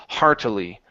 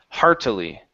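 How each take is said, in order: The two takes are said the same way.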